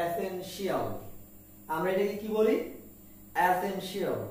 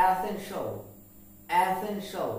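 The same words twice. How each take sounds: First: এসেনশিয়াল ending in shi-al; common mispronunciation. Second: এসেনশিয়াল ending in a one-beat sho; e-sen-sho for এসেনশিয়াল; correct pronunciation. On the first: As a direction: say এসেনশিয়াল as e-sen-shi-al, four beats. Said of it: "আমরা এটাকে বলি". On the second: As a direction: say এসেনশিয়াল as e-sen-shol, dark l. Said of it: "কিন্তু উচ্চারণ হবে". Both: Shown as a demonstration.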